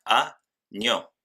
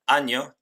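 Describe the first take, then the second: First: "a, ño" said as two separate syllables; split into syllables. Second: Said in the usual way. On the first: Shown as a demonstration. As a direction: break "a, ño" with a clear pause after a. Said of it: "tenemos dos sílabas". ("a, ño" separado en sílabas, con pausa) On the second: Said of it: "En el ejemplo año".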